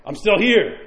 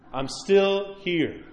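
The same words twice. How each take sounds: First: Said in the usual way. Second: "I'm still here" drawn out very slowly, the "still" stretched; a dying mother slowly repeating "I'm still here". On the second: Retold or imitated. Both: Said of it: "She's like".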